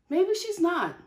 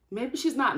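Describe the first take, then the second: First: Musing realization. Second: Said in the usual way. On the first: Shown as a demonstration.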